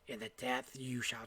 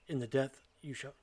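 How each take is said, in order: First: It is read in a put-on character voice. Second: It is read in a plain, ordinary voice. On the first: The speaker calls it right. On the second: The speaker calls it wrong.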